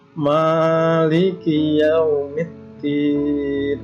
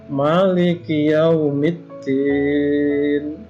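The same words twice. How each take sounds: First: The vowel after the m is long. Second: The vowel after the m is short. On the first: "boleh juga" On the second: "itu boleh memnya dibaca pendek"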